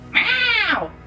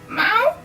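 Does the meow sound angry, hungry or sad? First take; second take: angry; hungry. First: It is an angry meow. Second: It is a hungry, pleading meow.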